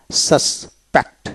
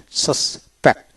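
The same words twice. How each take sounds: The two takes are said the same way.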